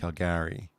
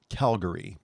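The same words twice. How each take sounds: First: The stress is on the later syllable, gary. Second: The stress is on the first syllable, Cal. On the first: This is how locals say it. "where you're putting it on Gary" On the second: This is how people elsewhere say it. "putting the emphasis on Cal"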